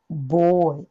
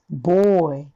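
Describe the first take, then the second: First: The first vowel is a full, strong o. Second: The same.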